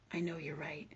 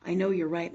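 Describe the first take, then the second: First: Soft hushed whisper of the daughter agreeing. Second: Said in the usual way. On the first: Retold or imitated. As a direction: breathe it as a whispered admission. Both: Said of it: "she tells me".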